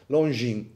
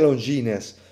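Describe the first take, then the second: First: The final s is silent. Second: The final s is pronounced. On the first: The speaker calls it right. "E S non si dice" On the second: The speaker calls it wrong. "Non si dice Longines"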